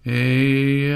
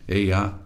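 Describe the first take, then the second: First: It is said long and drawn out. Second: It is said at an ordinary length.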